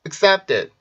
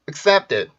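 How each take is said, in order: First: The last syllable has a soft, d-like sound. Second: The last syllable has a soft, d-like sound.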